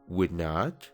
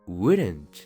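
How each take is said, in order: First: It is said as two full words. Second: It is said as one contracted word. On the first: The speaker calls it wrong. "En vez de decir" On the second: The speaker calls it right. "mejor di"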